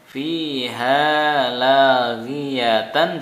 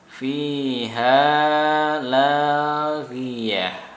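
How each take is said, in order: First: The last word ends with a t sound. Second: The last word ends with an h sound. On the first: Reading continues past the word. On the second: Reading stops at the word.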